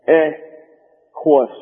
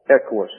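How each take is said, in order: First: "Equus" said slowly as EK-wus, stress on the first syllable; "Equus" with a short E and QU as KW, first syllable stressed; "Equus" drawn out, the short E leading and stressed; Equus, stressed up front. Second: Said in the usual way. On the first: Shown as a demonstration. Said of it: "the accent on the first syllable, you get". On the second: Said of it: "Equus is the way the word is pronounced".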